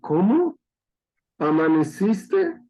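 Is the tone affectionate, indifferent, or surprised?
surprised. It is split in two with a surprised tone. The speaker hoped the other person had died. "esperando que ya cuelguen los tenis"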